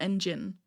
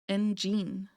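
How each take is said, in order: First: The second syllable does not sound like gene. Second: The second syllable sounds like the word gene. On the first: The speaker calls it wrong. "not engine, which is what I've been saying" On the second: The speaker calls it right. "So it would be gene, engine"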